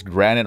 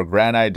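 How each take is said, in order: First: "granite" with a short second vowel, GRAN-it; alternative pronunciation. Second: "granite" with a long i, GRAN-ite; alternative pronunciation. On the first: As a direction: say "granite" ending like "it". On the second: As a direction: say "granite" ending like "night". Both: Shown as a demonstration. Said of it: "doesn't really matter how you pronounce it".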